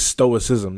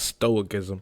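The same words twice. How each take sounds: First: It is said without a k sound. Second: It is said with a k sound. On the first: The speaker calls it right. "I think it's stoicism" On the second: The speaker calls it wrong. "not stoicism"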